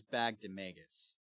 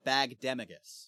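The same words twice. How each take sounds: First: "Bagdemagus" stressed on MAY, second to last; "Bagdemagus" with a long A in the third syllable; mistaken pronunciation. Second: "Bagdemagus" stressed on DEM, short second-last syllable; "Bagdemagus" with the beat on its second syllable; correct pronunciation. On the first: Retold or imitated. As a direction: say "Bagdemagus" as bag-duh-MAY-gus. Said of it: "I think you thought it was". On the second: Shown as a demonstration. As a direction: say "Bagdemagus" as bag-DEM-uh-gus. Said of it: "because it's pronounced Bagdemagus".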